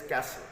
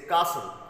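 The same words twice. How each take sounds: First: It is said in an American accent. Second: It is said in a British accent. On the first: "in uh, let's say American English, if you say, that is castle" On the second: "in uh, let's say UK they say castle"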